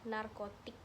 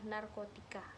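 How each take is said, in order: First: The word ends with a 'k' sound. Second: The word ends with an added 'a' sound. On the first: This is the standard pronunciation. The speaker calls it right. "Dalam kata bakunya itu adalah narkotik" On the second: This is a nonstandard pronunciation. The speaker calls it wrong. "lafal tidak baku itu adalah narkotika"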